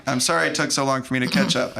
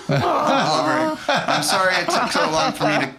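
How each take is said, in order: First: Said in the usual way. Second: High, laughing, slowed words; real tearful laugh, much higher; laughing through tears. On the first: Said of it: "repeats line more plainly". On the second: Real, not acted. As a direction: laugh while the feeling breaks through. Moved while retelling the letter scene.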